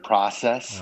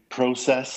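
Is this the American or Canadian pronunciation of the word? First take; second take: American; Canadian. First: It is said with an American pronunciation. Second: It is said with a Canadian pronunciation. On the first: "instead of process" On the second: "So I do say process"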